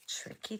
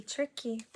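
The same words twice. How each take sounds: First: Whispered aside. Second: Said in the usual way. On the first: Real, not acted.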